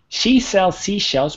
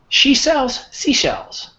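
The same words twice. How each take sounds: First: The phrase is said quickly and smoothly. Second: The phrase is said slowly and carefully. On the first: "now I'm going to say it fast" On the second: "Let me just read a few words for you"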